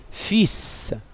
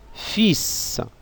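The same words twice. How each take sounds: Both takes have the same delivery.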